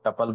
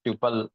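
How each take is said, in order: First: "tuple" said with a short "uh", TUP-ul. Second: "tuple" said with a long "yoo", TYOO-pul. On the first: Teacher showing the other way some say it, "tuple" as TUP-ul. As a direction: say "tuple" to rhyme with couple. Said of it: "कुछ लोग tuple बोलते हैं". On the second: Teacher showing how few people say it, "tuple" as TYOO-pul. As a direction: say "tuple" to rhyme with pupil. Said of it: "they will pronounce it as". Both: Shown as a demonstration.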